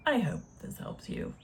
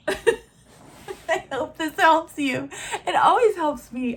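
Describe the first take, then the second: First: Said softly under her breath; hushed. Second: Louder and slow, laughing through it. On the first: Wrapping up for her viewers, a soft murmur. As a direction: murmur it almost to herself. Soft sign-off, then repeated laughing. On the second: Repeating her sign-off to viewers, laughing. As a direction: laugh it out with self-mocking glee. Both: Real, not acted.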